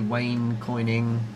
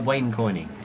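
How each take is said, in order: First: The phrase is said at a normal pace. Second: The phrase is said quickly.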